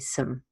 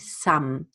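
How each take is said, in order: First: The word has a reduced schwa vowel. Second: The word has a full, clearly enunciated vowel. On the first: "you say some ... you use the schwa rather than the rust sound" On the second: "you don't over enunciate and you don't say some"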